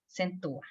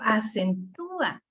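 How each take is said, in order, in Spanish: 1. El acento cae en la primera sílaba, a. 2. El acento cae en la tercera sílaba, tú. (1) "no le puedo dar la, la fuerza a la A porque se oye exagerado" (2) "Pero en cambio si digo acentúa, o sea, el sonido me lo pide"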